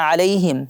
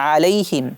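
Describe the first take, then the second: The two takes are said the same way.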